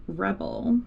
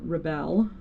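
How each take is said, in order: First: "Rebel" said like the English word, stress on the first syllable; first pronunciation. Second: "Rebelle" with the stress on the last syllable; "Rebelle" as ruh-BELL, French-style ending; second pronunciation. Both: Shown as a demonstration. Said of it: "I never know how to say it".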